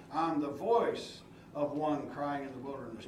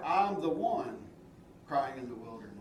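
First: "voice" leaned on, the phrase "of one crying" kept tied to it; stress on voice. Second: "the one" pressed, "crying in the wilderness" dropped away low; wrong version, stress on one. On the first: Preacher showing the congregation the verse's wording, stressing "voice". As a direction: stress the word "voice" so it owns the line. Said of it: "pay attention to how that's worded". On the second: Preacher giving the misquoted verse for contrast, weight on "one". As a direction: put the weight on "one", then let the rest fall off. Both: Shown as a demonstration.

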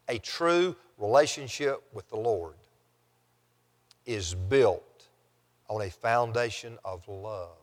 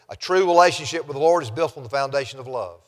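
First: Softer, lower, broken by long pauses. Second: Brisk run through the whole statement; quick note. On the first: Preacher restating last week's point to the congregation, measured and hushed. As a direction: let each phrase sink in, quietly. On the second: Preacher quickly noting last week's point to the congregation, brisk. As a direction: say it quickly, in one go. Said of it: "Just note very quickly". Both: Real, not acted.

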